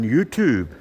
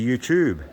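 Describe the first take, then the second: First: The word is said the American way. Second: The word is said the non-American way. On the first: The speaker has picked up the American habit. "I've even been saying YouTube" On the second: This is how the speaker normally says it. "instead of YouTube"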